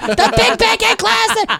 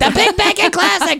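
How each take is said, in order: First: The phrase is said slowly and drawn out. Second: The phrase is said at a normal speed.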